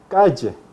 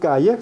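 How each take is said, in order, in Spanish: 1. La consonante del medio es un sonido vibrante, como 'zh'. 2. La consonante del medio es un sonido sencillo, como 'y'. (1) "El lehilamiento de yod" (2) "no se dice calle"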